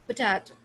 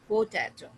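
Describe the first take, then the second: First: The first vowel is reduced almost to nothing. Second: The first vowel is said fully and clearly. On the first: The speaker calls it right. "पी बोल के potato" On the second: The speaker calls it wrong. "not potato"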